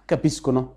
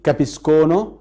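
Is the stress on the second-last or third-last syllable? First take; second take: third-last; second-last. First: The stress falls on the third-last syllable. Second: The stress falls on the second-last syllable. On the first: The speaker calls it right. "l'accento cade sempre sulla terzultima sillaba" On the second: The speaker calls it wrong. "ما اقولش كابيسكونو"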